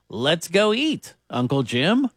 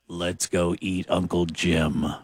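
First: There is a pause before Uncle Jim. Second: It runs on with no pause before Uncle Jim.

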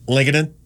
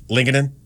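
No difference in how they are said.

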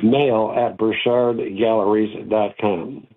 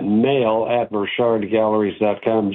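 First: It is said a little more slowly. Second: It is said at a normal speed.

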